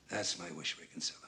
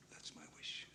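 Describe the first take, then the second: First: Said in the usual way. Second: Much softer, almost whispered; hushed wistful repeat. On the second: Acted. Old ballplayer confiding his wish to Ray Kinsella, hushed. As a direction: let the wish fade into a whisper.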